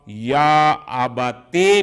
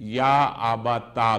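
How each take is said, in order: First: The last word ends in a short 'e' vowel. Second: The last word ends in a short 'a' vowel. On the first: "चाहे उस पर कसरा पड़े" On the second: "या फता"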